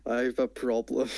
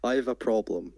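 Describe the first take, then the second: First: A dragging, hesitant start; half-hearted imitation of a hesitant speaker; mock hesitant. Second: Deliberate pause after the phrase; an imitated halting delivery; mock pause after it. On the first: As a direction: say it then trail off. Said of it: "It's like when you say". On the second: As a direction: let the words hang in a pause. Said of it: "and then you just pause".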